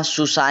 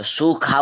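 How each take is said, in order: First: सुसा with a plain स, not ख; the wrong way, सुसा with an s sound; wrong sibilant. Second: सुखा with a clear aspirated ख; सुखा said as sukha, with the ख breathed; say kha. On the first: Teacher showing the mistake, sibilant not kha. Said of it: "सुसा नहीं बोलना". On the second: Teacher correcting the letter, aspirated kha. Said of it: "उसे खा बोलते हैं". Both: Shown as a demonstration.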